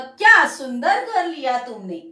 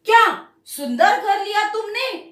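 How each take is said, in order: First: The first word is said softly, without stress. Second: The first word is said with extra force. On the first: "हम एकदम silently use करते हैं।" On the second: "हम थोड़ा pressure देते हैं।"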